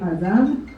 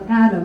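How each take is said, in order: First: It is said with Hebrew pronunciation. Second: It is said with English pronunciation. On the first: "the proper pronunciation from the from the Torah, from the Bible, is actually Adam" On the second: "in English they call it Adam"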